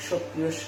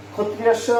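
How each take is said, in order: First: সক্রিয় স begun with "ksh", the k barely touched; সক্রিয় স as "(k)shotriyossho"; light k, then sh. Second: ক্ষত্রিয় স begun with "kh", as "khotriyossho"; everyday kh sound. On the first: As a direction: slip a faint k before the sh of সক্রিয় স. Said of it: "হালকাভাবে কটা উচ্চারণ হবে". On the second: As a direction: use a plain Bengali kh at the start of ক্ষত্রিয় স. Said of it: "বললে ভুল হবে না". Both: Shown as a demonstration.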